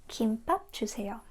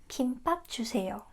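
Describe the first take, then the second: Both takes have the same delivery.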